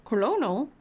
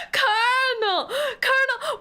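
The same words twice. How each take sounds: First: Colonel as kuh-LOH-nel, every L sounded. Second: Colonel as KER-nel, the R sounded through a laugh. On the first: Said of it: "do I pronounce this wrong?". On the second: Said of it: "where is the R?". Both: Real, not acted.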